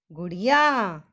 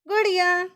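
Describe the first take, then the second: First: Said in the usual way. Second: गुड़िया said whole, higher and louder after spelling; careful model word. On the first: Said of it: "तो doll को हम हिंदी में क्या कहते हैं?". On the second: Shown as a demonstration. Teacher models गुड़िया for children to repeat, higher and louder. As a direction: join गु ड़ि या into one clear गुड़िया. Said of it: "गुड़िया शब्द को कैसे पढ़ा जाए".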